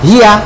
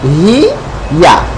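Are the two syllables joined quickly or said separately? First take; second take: joined; separate. First: The two syllables are run together quickly. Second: The two syllables are said slowly and separately. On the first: "দ্রুত" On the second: "একসাথে কি হবে?"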